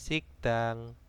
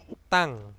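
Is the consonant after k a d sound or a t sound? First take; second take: d sound; t sound. First: The consonant after k is a soft d. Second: The consonant after k is a hard t. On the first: The speaker calls it wrong. "dibacanya bukan sikdang" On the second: The speaker calls it right. "D ini berubah menjadi T"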